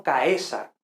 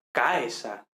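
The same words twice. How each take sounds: First: "caesar" as ca-E-sar, stressed on the e; wrong stress on E. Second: "caesar" as CA-e-sar, stressed on the a; stress on first element. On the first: Teacher warns students with the mistaken stress, ca-E-sar. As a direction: say "caesar" with the stress moved onto E. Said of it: "ojo, no caesar". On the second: Teacher corrects students, stressing CA in caesar. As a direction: hit the A of "caesar" and glide into e, slowly. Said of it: "sino caesar". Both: Shown as a demonstration.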